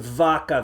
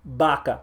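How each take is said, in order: First: The word begins with a V sound. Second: The word begins with a strong B sound. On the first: The speaker calls it wrong. "Don't say vaca, That's wrong. There is no V sound in Spanish" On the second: The speaker calls it right. "you pronounce it strong like a B"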